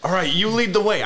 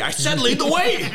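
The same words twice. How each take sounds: First: High-voiced comic deer giving an order; talking deer, first order. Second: Very high mock-exasperated deer order; insistent talking deer. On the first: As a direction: hand off the lead in a raised voice. Deer bossing its mate around. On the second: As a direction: insist in a squeaked-up comic voice. Same deer repeats order, more insistent.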